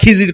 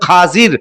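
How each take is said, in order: First: The first vowel is an 'i' sound. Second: The first vowel is an 'a' sound. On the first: This is the common everyday form. The speaker calls it wrong. "আমরা খিজির করে ডাকি" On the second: This is the form found in the book. The speaker calls it right. "শুদ্ধ উচ্চারণ হচ্ছে"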